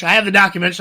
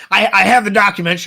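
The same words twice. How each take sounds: First: Mock Alex Jones. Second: Louder, hammed-up Alex Jones rant; mock Alex Jones. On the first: Host repeating the Alex Jones bit, mock. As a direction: repeat the claim as a mock rant. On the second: Podcast host mocking Alex Jones, mock rant. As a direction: slam it like a conspiracy host. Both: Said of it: "I need papers to shuffle".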